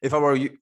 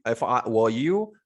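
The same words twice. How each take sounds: First: If I were you with I stressed; I pushed up and louder. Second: You lifted with a rise; stress on you. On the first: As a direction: lean on the word I. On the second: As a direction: land on the word you. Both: Shown as a demonstration.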